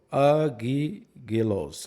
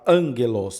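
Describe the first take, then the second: First: Both gammas sound like a hard g. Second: The first gamma sounds like an n. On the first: The speaker calls it wrong. "não agigelo" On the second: The speaker calls it right. "o primeiro gama ele vai como um N"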